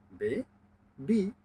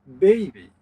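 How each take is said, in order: First: "বে, বি" as two parts with a long pause between; split into syllables. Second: Said in the usual way. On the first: Shown as a demonstration. Teacher showing two syllables, "বে, বি" split by a clear pause. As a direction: break it into "বে", pause, then higher "বি". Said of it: "দুটি syllable পেয়েছি". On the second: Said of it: "দুটি syllable পেলে আমরা বলবো".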